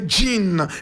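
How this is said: The name is pronounced the English way. "In English we say Jean"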